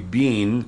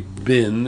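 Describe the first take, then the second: First: The vowel is long, like in 'bean'. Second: The vowel is short, like in 'bin'. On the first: This is how the English say it. "They say bean, and it's pronounced more like it's spelled" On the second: This is how Americans say it. "We say bin, and it's pronounced B-I-N"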